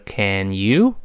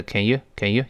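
First: "Can you" slowly, each word in full; slow reading. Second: "Can you" quick and reduced, passed over lightly; quick reading. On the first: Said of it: "读得慢的是". ("Can you" 慢读，读完整) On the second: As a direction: skim "can you" with weakened vowels. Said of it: "读快了是". ("Can you" 快读，一带而过) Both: Shown as a demonstration.

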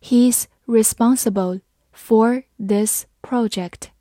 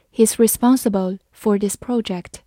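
First: Slow, careful read-aloud; slow teacher demo. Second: Said in the usual way. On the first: Shown as a demonstration. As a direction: read it slowly and clearly. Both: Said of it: "好，慢慢来读".

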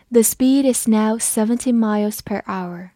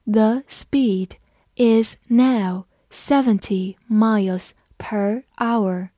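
First: Said in the usual way. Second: Slow, deliberate word-by-word reading. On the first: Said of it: "慢读一遍". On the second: Shown as a demonstration. Teacher reading slowly for the class. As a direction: read it slowly for learners. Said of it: "还是慢读一遍".

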